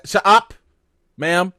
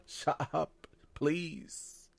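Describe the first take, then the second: First: Louder, higher exasperated snap; snapping at Tabitha on the TV, exasperated; loud shut up. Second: Much softer, hushed shut up please; pleading quietly with Tabitha not to wake the monsters. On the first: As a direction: cut her off sharply. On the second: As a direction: beg her under your breath to be quiet. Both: Retold or imitated.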